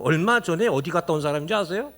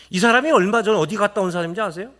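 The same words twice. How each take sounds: First: Said in the usual way. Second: Louder, fast pressing question; emphatic repeat. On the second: Shown as a demonstration. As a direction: push the question home to the crowd. (더 크고 빠르게 다그치듯 반복)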